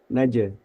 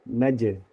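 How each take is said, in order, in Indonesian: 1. Pantulannya dibiarkan memudar secara alami. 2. Pantulannya dibiarkan memudar secara alami.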